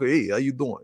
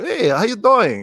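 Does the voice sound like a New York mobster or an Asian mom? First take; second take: New York mobster; Asian mom. First: It is said in a Tony Soprano mobster voice. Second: It is said in his mom's Asian-accented voice.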